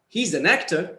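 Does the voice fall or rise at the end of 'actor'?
rise. The voice rises at the end. More is coming in the sentence. "if you are going to continue, you'll use a rising tone"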